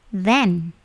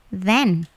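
Both takes have the same delivery.

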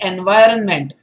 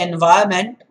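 First: The N before the last syllable is pronounced. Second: The N before the last syllable is silent. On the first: The speaker calls it right. "That N is not silent there" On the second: The speaker calls it wrong. "Rather than say environment"

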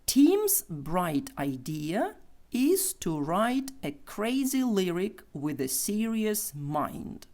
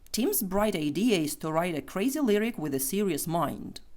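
First: The sentence is spoken slowly. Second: The sentence is spoken quickly. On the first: "Повільно" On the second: "Тепер швидше"

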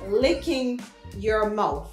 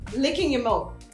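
First: It is said slowly. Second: It is said at normal speed.

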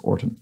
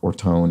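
First: The second syllable has a weak, short vowel. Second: The second syllable has a full 'tone' vowel. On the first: The speaker calls it right. "No, it's just how it looks" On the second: The speaker calls it wrong. "which I pronounce something like Ortone"

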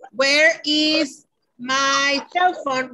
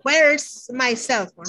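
First: Where and is are said as two full words. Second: Where and is merge into one contracted syllable. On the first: "Instead of saying" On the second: "we say where's my cell phone, right? It's a contraction"

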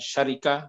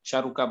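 First: The second vowel is an i sound. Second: The second vowel is a u sound. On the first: "Bukan syarika" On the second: "bukan syaruka"

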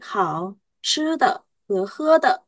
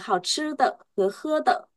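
First: The two phrases are separated by a pause. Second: The two phrases run together without a pause. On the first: The speaker calls it right. "mình nên tách" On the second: The speaker calls it wrong. "Chứ không phải là"

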